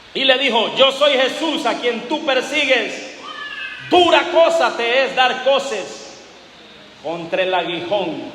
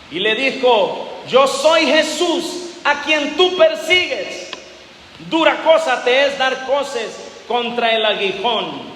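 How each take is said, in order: No difference in how they are said.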